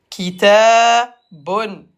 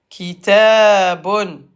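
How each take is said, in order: No difference in how they are said.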